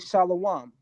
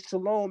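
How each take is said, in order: First: It is said in the alternative Hebrew way. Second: It is said in the common modern way. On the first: This is how the Lashawan Kwadash group says it. "they say" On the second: This is how most people in the community say it. "as many of us do"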